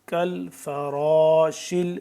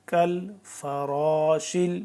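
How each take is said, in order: Both takes have the same delivery.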